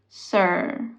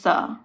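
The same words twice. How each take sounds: First: The final R sound is pronounced and drawn out. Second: The final R sound is dropped. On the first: "if you want to speak in the American accent, you gotta keep the R" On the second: "the traditional Indian way of saying sir is"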